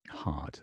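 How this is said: It is said with a British accent. "British pronunciation is kind of close to the a"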